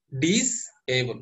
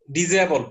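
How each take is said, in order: First: ডিসএবল said very slowly as ডিস plus এবল; split into parts. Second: Said in the usual way. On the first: Shown as a demonstration. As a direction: break ডিসএবল into its two parts for students. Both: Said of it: "ডিস মানে না".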